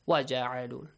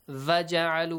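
First: The word begins with a w sound. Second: The word begins with a v sound. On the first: The speaker calls it right. "But in Arabic, you don't have it. Wa" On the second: The speaker calls it wrong. "Make sure you don't say va"

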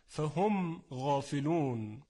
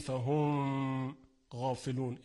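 First: The m is said plainly without extra nasal hum. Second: The m is held with an added nasal hum. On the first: The speaker calls it right. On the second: The speaker calls it wrong.

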